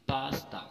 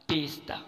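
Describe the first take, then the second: First: "पास्ता" with a long "paa"; correct pronunciation. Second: "पेस्ता" with "pay" at the start; wrong pronunciation. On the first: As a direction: say "पास्ता" as PAAS-ta. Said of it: "right pronunciation". ("पास्ता", लंबा "पा") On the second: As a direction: say "पेस्ता" as PES-ta. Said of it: "ना कि". ("पेस्ता", शुरू में "पे") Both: Shown as a demonstration.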